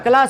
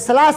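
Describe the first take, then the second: First: The word begins with a k sound. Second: The word begins with an s sound. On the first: The speaker calls it right. "क्लास होता है" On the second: The speaker calls it wrong. "ये सलास नहीं होता"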